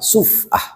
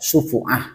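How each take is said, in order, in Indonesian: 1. Huruf f langsung diikuti bunyi lain, tanpa vokal. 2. Huruf f diikuti vokal u. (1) "dibaca dengan sukun fa" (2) "membaca domah"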